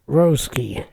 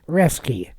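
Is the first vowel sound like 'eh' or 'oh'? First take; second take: oh; eh. First: The first vowel sounds like 'oh'. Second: The first vowel sounds like 'eh'. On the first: The speaker calls it wrong. "not Roski" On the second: The speaker calls it right. "it's pronounced Reske"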